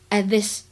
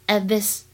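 Both takes have the same delivery.

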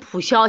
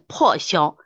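First: The first syllable is read as pu. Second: The first syllable is read as po. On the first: The speaker calls it wrong. "你念普消" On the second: The speaker calls it right. "其实念破消"

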